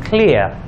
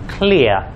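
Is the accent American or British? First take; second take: British; British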